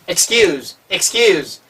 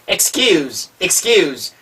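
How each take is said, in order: Both takes have the same delivery.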